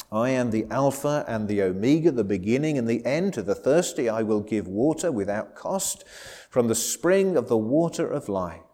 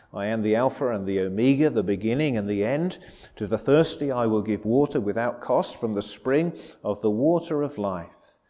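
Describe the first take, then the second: Both takes have the same delivery.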